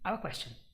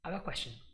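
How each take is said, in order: No difference in how they are said.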